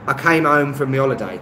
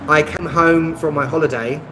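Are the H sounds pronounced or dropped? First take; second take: dropped; pronounced. First: The H sounds are dropped entirely. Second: The H sounds are pronounced clearly.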